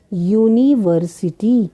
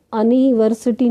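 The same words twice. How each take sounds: First: यूनिवर्सिटी with a "yoo" start, slowly syllable by syllable; teacherly, drawn-out यूनिवर्सिटी beginning with a y-glide; correct pronunciation. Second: अनिवर्सिटी with a short "uh" start, no y-glide; deliberate misreading अनिवर्सिटी with a plain vowel opening; wrong pronunciation. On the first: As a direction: sound out यूनिवर्सिटी slowly, opening on "yu". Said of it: "हम क्या पढ़ेंगे". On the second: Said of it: "इसको अनिवर्सिटी नहीं बोलेंगे". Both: Shown as a demonstration.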